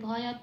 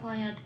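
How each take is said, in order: First: The final t carries a full vowel. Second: The final t is cut off with no vowel. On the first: "পূর্ণরূপেও বলতে পারবো না" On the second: "হসন্ত লাগিয়ে বলতে পারবো না"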